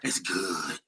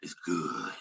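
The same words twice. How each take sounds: First: It is said in a plain, ordinary voice. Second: It is said in a low, sexy voice.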